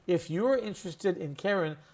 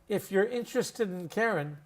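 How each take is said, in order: First: The word 'in' is said fully and clearly. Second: The word 'in' is reduced to a short 'mm'. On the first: "Standard English, watch my mouth" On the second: "we pronounce it mm"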